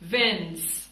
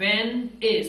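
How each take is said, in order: First: The two words are joined into one short word. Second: The two words are said separately and fully.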